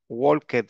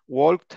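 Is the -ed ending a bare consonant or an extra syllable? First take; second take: extra syllable; consonant. First: The ending is pronounced as an extra syllable. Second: The ending is only a t sound. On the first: The speaker calls it right. "ahí sí se pronuncia la ed" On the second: The speaker calls it wrong. "no suena bien"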